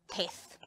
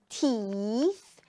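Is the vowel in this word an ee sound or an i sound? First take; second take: i sound; ee sound. First: The vowel is an i sound. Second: The vowel is a long ee sound. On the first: The speaker calls it wrong. "and not teeth. Because it's not I" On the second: The speaker calls it right. "you say teeth ... it's E"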